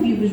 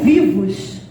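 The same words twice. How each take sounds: First: The word is said flatly, without enthusiasm. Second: The word is said with lively exclamatory emphasis. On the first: It is only a half-hearted statement. "não é um vivos mais ou menos" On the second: It is a full, emphatic celebration. "é um vivos com exclamação"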